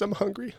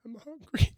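First: A touch of the applicant's plea again; desperate plea. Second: Retelling a broke job applicant's pitched-up answer; desperate plea. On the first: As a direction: plead "I'm hungry" in a small raised voice. Repeats the applicant's answer. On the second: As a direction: say "I'm hungry" high and small, like a plea. Retold job interview, desperate answer. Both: Retold or imitated.

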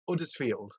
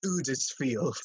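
First: "Uddersfield" with no H, short "uh" vowel first; dropped H. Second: "Uddersfield" with a long "oo" at the start; misheard pronunciation. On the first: Retelling an actress's interview, "Uddersfield" with H dropped. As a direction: say "Uddersfield" the local way, starting on the vowel. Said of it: "You just don't pronounce the H". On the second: Mimicking Americans who misheard the town, "Uddersfield" as "Oodersfield". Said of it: "they took it as Uddersfield". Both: Retold or imitated.

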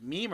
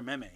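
First: "meme" as one syllable, "meem". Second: "meme" as "meh-may", the alternative reading; meme with short e. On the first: Friend asking which pronunciation, "meme" said as meem. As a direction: say "meme" with a long ee. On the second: Friend asking which pronunciation, "meme" said meh-may. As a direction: say "meme" with an e as in hem. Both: Shown as a demonstration. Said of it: "Is it meme or meme?".

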